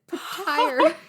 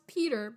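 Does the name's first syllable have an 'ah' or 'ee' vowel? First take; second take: ah; ee. First: The name sounds like pa-TEER. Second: The name sounds like PEE-ter. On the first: The speaker calls it wrong. "that's how the audiobook person says it" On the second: The speaker calls it right. "It's supposed to be pronounced Peter"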